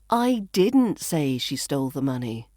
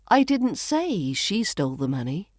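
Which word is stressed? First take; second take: didn't; say. First: The word didn't carries the main stress. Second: The word say carries the main stress. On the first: The speaker never said it. "which implies I never said that" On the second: It was implied rather than said. "Maybe I implied it rather than saying it"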